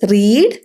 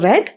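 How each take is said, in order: First: The vowel is long, like 'reed'. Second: The vowel is short, like 'red'. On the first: It is the base form of the verb. "അതിൽ റീഡ്" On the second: It is the past tense form of the verb. "Past tense റെഡ്"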